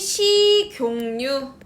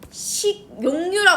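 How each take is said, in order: First: An n sound is added before the second syllable. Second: It is said without an added n sound. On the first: The speaker calls it right. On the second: The speaker calls it wrong.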